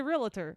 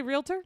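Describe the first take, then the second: First: "realtor" as REE-la-ter, with an extra vowel; three-syllable pronunciation. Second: "realtor" in two syllables, REEL-ter, raised high; two-syllable pronunciation. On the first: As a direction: slip an "uh" between L and T in "realtor". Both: Shown as a demonstration. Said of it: "Some people say realtor".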